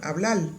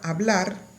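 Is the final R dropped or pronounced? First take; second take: dropped; pronounced. First: The final R is dropped. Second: The final R is pronounced. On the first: "tienden a suprimir la R al final de sílabas" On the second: "en la palabra hablar"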